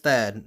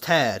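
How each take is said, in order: First: It begins with a TH sound. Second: It begins with a plain T sound. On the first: The speaker calls it right. "Apparently it's Thad" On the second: The speaker calls it wrong. "I thought like the H was silent"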